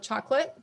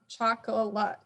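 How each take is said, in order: First: It is said with two syllables, the schwa dropped. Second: It is said with three syllables, the schwa kept. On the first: This is the easy, everyday way people say it. "I'm eliminating that schwa" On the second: This is the careful form that shows the spelling. "I'm not saying chocolate"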